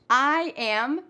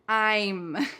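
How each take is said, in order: First: It is said as two separate syllables. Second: It is said as one quick syllable.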